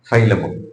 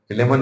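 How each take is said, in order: First: The first vowel is an 'eye' sound. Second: The first vowel is a short 'i' sound. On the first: This is the English way of saying it. The speaker calls it right. "ഇംഗ്ലീഷിൽ പറയുമ്പോഴേ ഫൈലമോൻ" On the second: This is not the English way of saying it. The speaker calls it wrong. "ഫിലേമോൻ അല്ല"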